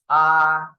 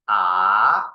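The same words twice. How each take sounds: First: The pitch stays high and level. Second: The pitch rises from middle to high. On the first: "The first tone is R" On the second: "The second tone is R"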